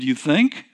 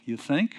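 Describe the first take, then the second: First: Said in the usual way. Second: "You think?" muttered softly under the breath, rising at the end; said to myself. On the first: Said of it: "I said". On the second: Retold or imitated. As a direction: keep "You think?" private and soft, a wry inner aside. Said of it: "I said to myself".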